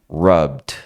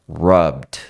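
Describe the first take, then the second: The two takes are said the same way.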